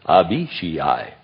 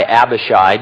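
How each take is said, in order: First: The name is said with a Hebrew pronunciation. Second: The name is said with an Anglicized pronunciation. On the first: The speaker calls it right. "on the Hebrew pronunciation site, and the guy comes on and says" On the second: The speaker calls it wrong. "for years I've called this guy Abishai because that makes sense to me"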